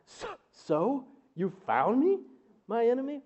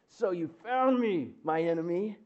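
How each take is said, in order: First: It is said in shock. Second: It is said in anger.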